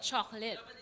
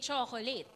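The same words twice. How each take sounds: First: Some syllables are reduced and not emphasized. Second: Every syllable is pronounced fully and evenly. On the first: The word is used in English. "you're not emphasizing every syllable" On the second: The English word is used inside Filipino. "you might use the Filipino rule. So you would say"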